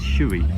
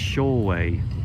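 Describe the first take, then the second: First: The name is said with a British English pronunciation. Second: The name is said with a Japanese pronunciation. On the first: "I'm going to pronounce it as we do in Britain" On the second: "it's pronounced Shoei. So totally different in Japanese"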